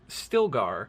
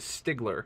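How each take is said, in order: First: The name is said as Stilgar, L before G. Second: The name is said as Stigler, G before L. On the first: The speaker calls it right. "named Stilgar" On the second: The speaker calls it wrong. "always read it as Stigler"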